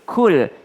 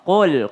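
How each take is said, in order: First: It starts with a plain front k. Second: It starts with a deep back-of-throat q. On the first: The speaker calls it wrong. "bukan kul" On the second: The speaker calls it right. "qul pakai qaf"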